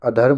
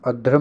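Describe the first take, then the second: First: अधर्म as a-dharm, r before m; teacher modelling a-dharm for अधर्म; correct pronunciation. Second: अधर्म twisted into ad-dhram; teacher showing faulty ad-dhram for अधर्म; wrong pronunciation. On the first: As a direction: keep the r late in अधर्म, a-dharm. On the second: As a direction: move the r forward in अधर्म, ad-dhram. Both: Shown as a demonstration. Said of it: "अधर्म नहीं होता".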